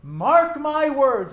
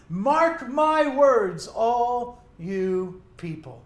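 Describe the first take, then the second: First: Slow, loud, higher proclamation; declaration. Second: Declaration. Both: Acted. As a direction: proclaim it slowly to the whole crowd. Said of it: "like a declaration".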